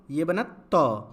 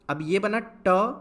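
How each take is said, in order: First: त with the tongue tip on the teeth, falling; dental त. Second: ट with the tongue curled back, stressed and rising; retroflex ट. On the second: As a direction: hit ट hard and retroflex. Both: Shown as a demonstration. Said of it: "दोनों का sound अलग है".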